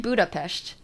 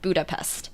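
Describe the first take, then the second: First: The name is said the way locals say it. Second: The name is said the usual Western way. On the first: The speaker calls it right. "but it's actually Budapest" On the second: The speaker calls it wrong. "a lot of the time in the Western world, and pronounce it Budapest"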